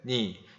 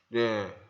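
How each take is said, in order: First: It is said with the nose open. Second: It is said with the nose pinched shut. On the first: "니 해볼게요" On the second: "이제 코 막고 발음해 볼게요"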